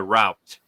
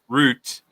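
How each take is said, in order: First: It is said with an American pronunciation. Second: It is said with a British pronunciation. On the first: "they say route" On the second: "We say ra- route"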